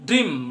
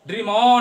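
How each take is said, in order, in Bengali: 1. শব্দটি শেষের m-এ পরিষ্কারভাবে থেমে যায়। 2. m-এর পরে একটি অতিরিক্ত স্বরধ্বনি শোনা যায়। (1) "ম থেমে যায় তাই হসন্ত দিলাম" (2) "ড্রিম অ নয়"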